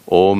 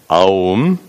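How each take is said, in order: First: The word is said with a single o vowel. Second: The word is said as a then u. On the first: The speaker calls it right. "Om is never pronounced Aum" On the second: The speaker calls it wrong. "never pronounced Aum"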